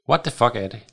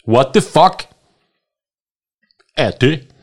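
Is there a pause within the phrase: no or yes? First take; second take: no; yes. First: It is said without a pause inside. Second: It is said with a pause inside. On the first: The speaker calls it wrong. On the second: The speaker calls it right.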